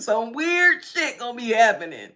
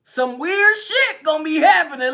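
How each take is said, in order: First: Said in the usual way. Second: High, loud emphatic warning; loud emphatic warning to viewers. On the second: Shown as a demonstration. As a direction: punch the whole line. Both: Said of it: "Let me just say that".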